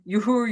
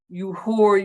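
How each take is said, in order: First: It sounds friendly and joking. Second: It sounds hostile and serious.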